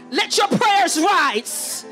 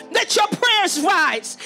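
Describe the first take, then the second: No difference in how they are said.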